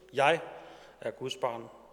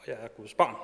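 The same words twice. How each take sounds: First: The stress falls on the word jeg. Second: The stress falls on the word barn.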